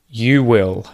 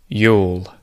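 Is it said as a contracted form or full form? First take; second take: full; contracted. First: Both words are said fully and separately. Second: The two words merge into one syllable.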